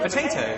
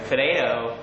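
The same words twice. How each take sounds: First: Said in the usual way. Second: American "puh-day-do"; American accent. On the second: Shown as a demonstration. Brit trying a requested word, American accent. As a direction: flap the T's like an American. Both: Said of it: "my best American accent".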